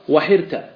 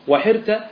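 Both takes have the same delivery.

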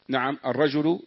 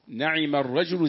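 First: The first word has a, then no vowel. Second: The first word has a, then i, two syllables. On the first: The second vowel is dropped. "بفتح النون وسكون العين" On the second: This is the original form. "هذا الأصل"

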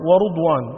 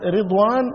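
First: The first syllable has a u vowel. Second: The first syllable has an i vowel. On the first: "وبضمها" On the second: "بكسر الراء"

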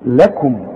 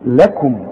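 First: The L is light and thin, with spread lips. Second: The same.

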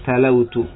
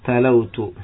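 Both takes have the same delivery.

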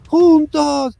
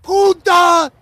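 First: It is said flatly, without energy or feeling. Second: It is shouted with strong energy and feeling. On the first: The dubbed line as actually delivered. The speaker calls it wrong. "Así, sin ganas, sin expresividad" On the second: How the dramatic line should sound. The speaker calls it right. "No dice"

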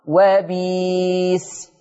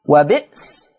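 First: A long ee vowel replaces the glottal stop. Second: A glottal stop is heard in the middle.

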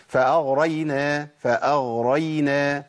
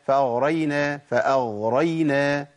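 The two takes are said the same way.

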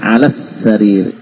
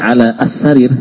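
First: The a-sound drops, linking straight into the s. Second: Ala and as-sarir are said separately, a-sound kept. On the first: The speaker calls it right. "Ada hilang sudah, langsung kesin langsung" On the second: The speaker calls it wrong. "Jadi bukan lagi ala as-sarir"

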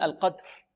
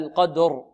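First: The final r is weak and barely voiced. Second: The final r is fully voiced and clear. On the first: The speaker calls it wrong. "أما بعض الطلاب يقولون القدر" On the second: The speaker calls it right. "فلابد من إعطائها جهرها، هكذا القدر"

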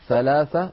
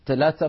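First: The word is said with th sounds. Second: The word is said with t sounds. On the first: The speaker calls it right. "بالثاء" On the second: The speaker calls it wrong. "ما بيصح"

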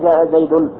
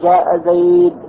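First: The last word ends with an added n sound. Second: The last word ends without an n sound. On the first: The speaker calls it wrong. "لا تقول جاء زيد خطأ" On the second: The speaker calls it right. "وإنما تقول عند الوقف جاء زيد"

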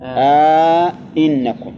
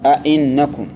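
First: A long 'a' is added and both glottal stops are full. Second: Both glottal stops are full, with no added long vowel. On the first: "إدخال ألف بينهما ... هذا على التحقيق" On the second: "تحقيق الهمزتين تقول"

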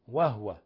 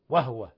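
No difference in how they are said.

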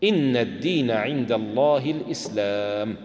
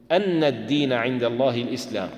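First: The first word begins with an 'i' vowel. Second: The first word begins with an 'a' vowel. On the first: The clause starts a new statement. "بكسر الهمزة ابتداء" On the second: The clause restates what is being testified. "وبفتحها بدل"

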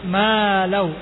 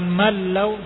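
First: The vowel after the m is held long. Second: The vowel after the m is cut short. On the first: The speaker calls it right. "tapi malau. Itu ma-nya ada alif, huruf mad" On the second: The speaker calls it wrong. "Jangan langsung pindah, jangan malau"

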